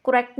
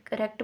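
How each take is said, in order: First: "करेक्ट" as "ko-rekt", with an o in the first syllable; wrong pronunciation. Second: "करेक्ट" as "kuh-rekt", short neutral first vowel; corrected pronunciation. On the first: Someone correcting a learner quotes the error, "करेक्ट" mispronounced as "ko-rekt". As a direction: give the faulty "ko-rekt" for "करेक्ट". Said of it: "करेक्ट नहीं बोलते". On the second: Someone correcting a learner models it, "करेक्ट" pronounced "kuh-rekt". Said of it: "करेक्ट बोलते हैं". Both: Shown as a demonstration.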